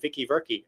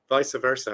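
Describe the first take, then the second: First: The phrase is deliberately mangled and distorted. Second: The phrase is pronounced in the ordinary way. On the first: The speaker calls it wrong. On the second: The speaker calls it right.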